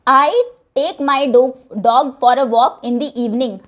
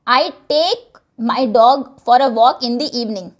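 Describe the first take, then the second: First: The word I carries the stress. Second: The word take carries the stress. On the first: I do it, nobody else. "मैं, कोई और नहीं" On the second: The emphasis is on taking the dog. "यहां पर लेकर जाने पर जोर है"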